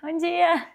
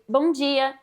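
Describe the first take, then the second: First: It is said with a smile in the voice. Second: It is said plainly, without a smile.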